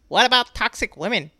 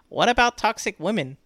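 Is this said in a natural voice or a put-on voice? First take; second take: put-on; natural. First: It is said in a put-on imitation voice. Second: It is said in the speaker's natural voice. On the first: The speaker is mocking the commenter. "This is how I imagine he talks" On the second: The speaker is clarifying the words. "What I said is"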